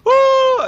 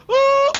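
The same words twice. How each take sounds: First: Loud, very high yelp of pain; pained cry. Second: Very high, loud imitated yelp; mock cry. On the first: Retold or imitated. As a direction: cry out as the pebble hits. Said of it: "he's going". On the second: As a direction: echo his yelp back. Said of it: "And you say".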